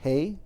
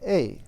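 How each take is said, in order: First: The word begins with an h sound. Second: The word begins with a vowel sound. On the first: "we have two pronunciations of a. It's hey" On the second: "or a"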